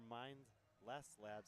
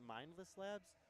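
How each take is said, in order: First: There is a pause between mind and less. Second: Mindless is said as one smooth word. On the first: It means to mind less. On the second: It is the single word mindless.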